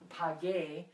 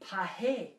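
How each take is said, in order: First: The middle consonant is a hard g sound. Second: The middle consonant is a breathy h sound. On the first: The speaker calls it right. "make it G U E, pague" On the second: The speaker calls it wrong. "G E has a H sound, not a G sound. So it would be pahe"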